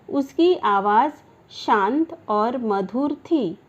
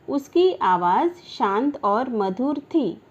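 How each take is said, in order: The two takes are said the same way.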